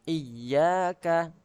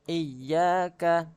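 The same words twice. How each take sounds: No difference in how they are said.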